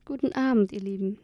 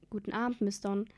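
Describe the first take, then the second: First: Put-on an old woman's croak. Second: Said in the usual way. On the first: A narrator's reading. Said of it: "krächzt sie". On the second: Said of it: "sagten wir beide gleichzeitig".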